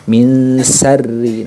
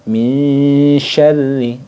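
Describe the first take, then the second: First: The nun is followed by a plain s sound. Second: The nun blends into a spread sh sound. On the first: The speaker calls it wrong. "berbeda ketika kita menggunakan huruf sin" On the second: The speaker calls it right. "disamarkan ke huruf shinnya"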